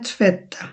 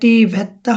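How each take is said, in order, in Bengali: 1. প্রথম t হলো একটি নরম অ্যাসপিরেটেড দন্ত্য ধ্বনি। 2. প্রথম t হলো একটি কঠিন মূর্ধন্য ধ্বনি। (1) "এটা হবে tvätta আমাদের থ যেটা" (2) "টি ভেত্তা হবে না"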